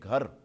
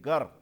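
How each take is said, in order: First: The first consonant is aspirated, with an h-sound. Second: The first consonant is plain, without an h-sound. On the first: This is the standard dialect form. "मयारी लहजे में घर" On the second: This is the Lari dialect form. "वो कहेंगे गर, हे को वो खा जाते हैं"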